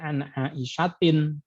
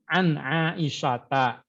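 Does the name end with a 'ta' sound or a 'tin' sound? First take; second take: tin; ta. First: The name ends with the sound 'tin'. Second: The name ends with the sound 'ta'. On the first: The speaker calls it wrong. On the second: The speaker calls it right.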